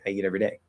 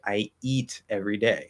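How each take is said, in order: First: It is said quickly with a short vowel. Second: It is said slowly with a long vowel. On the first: The speaker calls it right. "it's really short because I'm speaking more quickly" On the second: The speaker calls it wrong. "I'm not going to say like"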